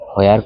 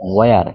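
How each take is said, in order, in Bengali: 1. শব্দটি h ধ্বনি দিয়ে শুরু হয়। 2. শব্দটি h ধ্বনি ছাড়া শুরু হয়। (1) "হোয়ার কইলে হবে না" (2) "ওয়ার অর্থ কোথায়"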